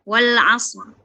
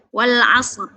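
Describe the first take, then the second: First: The r is thick and heavy, ending on it. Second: The same.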